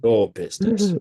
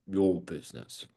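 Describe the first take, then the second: First: "your business" pitched higher and louder, falling on "business"; lively take. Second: Mimicking a flat, lower, slow "your business"; flat mimicry. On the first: Coach showing trainee a higher, louder "your business". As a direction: lift "your business" high and bright. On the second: Coach mimicking trainee's flat delivery, low and slow. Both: Shown as a demonstration. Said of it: "the only difference is that you're doing is".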